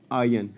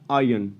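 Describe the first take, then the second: Both takes have the same delivery.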